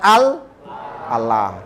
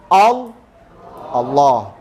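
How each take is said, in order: First: The L is pronounced thin and light. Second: The L is pronounced heavy and full. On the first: The speaker calls it wrong. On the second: The speaker calls it right. "maka lafzul jalalah dibaca lo"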